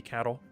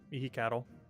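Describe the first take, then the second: First: The middle 'hi' syllable is left out. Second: All syllables are pronounced, including the middle 'hi'.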